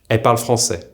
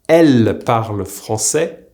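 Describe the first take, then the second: First: The L sound of elle is weakened. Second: The L sound of elle is fully pronounced. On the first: "will usually be pronounced in a fast-paced conversation"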